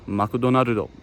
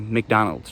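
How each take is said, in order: First: It is said in a Japanese accent. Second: It is said in a plain English accent.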